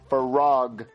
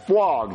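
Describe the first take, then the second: First: The word is said with an R sound. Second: The word is said with a W sound. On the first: The speaker calls it right. "You gotta say frog" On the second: The speaker calls it wrong. "You're saying fwog. ... There's no W"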